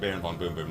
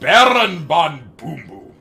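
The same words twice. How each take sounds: First: The name is said plainly, without flair. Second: The name is said dramatically, with cool flair.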